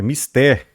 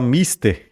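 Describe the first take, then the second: First: Mister stressed on the last syllable, mis-TER; mister said the right way, mis-TER; correct stress. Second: Mister stressed on the first syllable, MIS-ter; mister said as the common mistake, MIS-ter; wrong stress. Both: Shown as a demonstration. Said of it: "A gente não vai falar mister, é mister".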